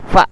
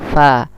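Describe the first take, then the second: First: The f sound is cut off abruptly. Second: The f sound flows with continuous breath. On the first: The speaker calls it wrong. "Tidak boleh fa" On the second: The speaker calls it right. "tapi fa"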